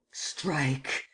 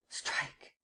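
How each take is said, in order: First: Said in the usual way. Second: Hissed whispered order; whispered command. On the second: Acted. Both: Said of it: "and commanded".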